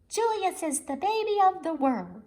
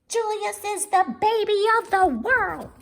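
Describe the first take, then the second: First: It is said at normal volume. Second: It is said loudly.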